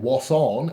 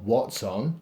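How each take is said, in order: First: It is said with a rhotic southwest English burr. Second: It is said in a standard, non-rhotic accent. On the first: "the reason why I'm saying what's on ... is because I live in Cornwall" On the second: "not what's on"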